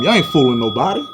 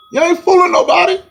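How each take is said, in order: First: Said in the usual way. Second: Much higher, mocking taunt. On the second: Real, not acted. Taunting Nets fans in a high mocking voice. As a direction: throw it up high at them. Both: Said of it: "repeated taunt".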